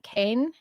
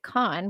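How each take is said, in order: First: The vowel sounds like in cane. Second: The vowel sounds like in con. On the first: It follows the spelling rather than local usage. "I'm going to pronounce that Cain" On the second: It is how the locals say it. "they do actually pronounce it Khan"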